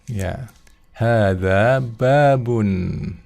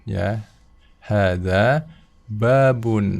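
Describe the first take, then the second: Both takes have the same delivery.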